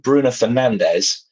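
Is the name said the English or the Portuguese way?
English. The name is said with English sounds. "you change from"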